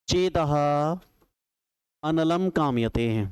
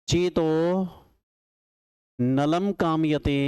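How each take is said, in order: First: It is split as 'chetah analam kamayate'. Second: It is split as 'nalam kamayate'. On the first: My mind desires fire. "और एक ऐसे तोड़ दिया है इसको" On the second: My mind desires Nala. "अब दूसरे तरीके से कैसे तोड़ा है"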